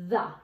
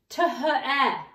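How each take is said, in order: First: It is said as one short familiar word. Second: Each letter sound is read out separately. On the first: The speaker calls it right. "the sight word says the" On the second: The speaker calls it wrong. "if we sounded it out"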